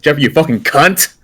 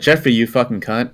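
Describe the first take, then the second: First: The final T of the last word is hard. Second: The final T of the last word is dropped. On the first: It is meant as an insult. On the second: It is a word of affection between friends.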